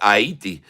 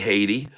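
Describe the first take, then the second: First: It is pronounced the way Haitians say it. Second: It is pronounced the American way. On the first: "if you're an Haitian" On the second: "as Americans say"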